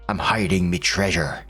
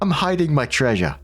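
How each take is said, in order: First: It is said in a put-on pirate voice. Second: It is said in a normal speaking voice.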